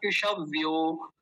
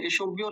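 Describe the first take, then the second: First: इषव्यो with an open a after ष; correct pronunciation. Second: इषुव्यो with a quick u after the ष; mistaken pronunciation. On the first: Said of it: "इषुव्यो नहीं होता". (इषव्यो, ष में अ के साथ स्पष्ट) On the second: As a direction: say इषुव्यो fast, u replacing the a. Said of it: "कुछ लोग इसको इषुव्यो बोलते हैं". (इषुव्यो, ष में उ लगाकर जल्दी) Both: Shown as a demonstration.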